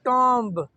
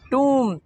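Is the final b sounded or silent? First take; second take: sounded; silent. First: It has a short 'o' and a sounded final b. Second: It has a long 'oo' and no final b. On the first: The speaker calls it wrong. "इसको हम आमतौर पे कहते हैं टॉम्ब" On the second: The speaker calls it right. "इसकी pronunciation है टूम, बी silent है"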